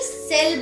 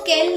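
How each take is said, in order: First: The word begins with an S sound. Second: The word begins with a K sound. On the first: The speaker calls it right. "सेल बोलते हैं" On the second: The speaker calls it wrong. "इसको केल नहीं"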